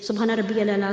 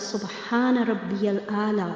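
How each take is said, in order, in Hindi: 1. यह वाक्य जल्दी-जल्दी बोला गया है। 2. यह वाक्य धीरे और प्यार से बोला गया है। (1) "हम बड़ी जल्दी-जल्दी बोल जाते हैं" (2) "ऐसे मोहब्बत से अदा करें"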